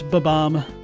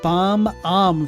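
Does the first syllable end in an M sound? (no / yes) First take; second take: no; yes. First: The first syllable has no M sound. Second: The first syllable ends with an M sound. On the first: The speaker calls it right. "There's no uh, first M there, so it's ba-bomb" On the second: The speaker calls it wrong. "you've been pronouncing it bomb-om forever"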